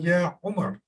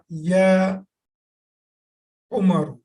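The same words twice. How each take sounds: First: The name ends on a consonant, no vowel. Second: The name ends with a final vowel.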